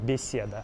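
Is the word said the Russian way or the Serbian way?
Russian. The word is said with Russian pronunciation. "По-русски мы говорим беседа"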